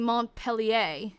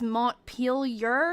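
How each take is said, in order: First: The name is said the French way. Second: The name is said the English way. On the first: The speaker calls it wrong. "like I was saying Montpellier" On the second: The speaker calls it right. "but it's Montpelier"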